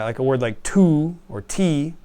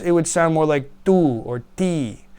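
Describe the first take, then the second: First: The t has a breathy puff before the vowel. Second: The t has no breathy puff before the vowel. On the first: This is how English speakers say it. "we would say like tu" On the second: This is how most other languages say it. "They would say it without that little H"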